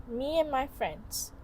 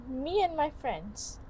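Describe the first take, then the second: The two takes are said the same way.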